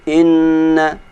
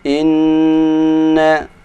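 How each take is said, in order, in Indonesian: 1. Dengungnya dipotong singkat. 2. Dengungnya ditahan lama. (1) "kalau kita membaca dengung hanya dua harokat, saya anggap kurang" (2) "Ukuran dengung tiga harokat"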